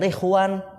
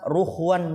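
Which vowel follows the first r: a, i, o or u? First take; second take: i; u. First: The first vowel is an i sound. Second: The first vowel is a u sound. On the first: "bisa ri ro ru" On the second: "bisa ri ro ru"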